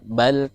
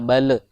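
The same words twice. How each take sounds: First: The final l is held without any bounce. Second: The final l bounces with an extra sound. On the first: The speaker calls it right. "balnya harus ditahan lam sukunnya" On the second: The speaker calls it wrong. "tadi membacanya bal"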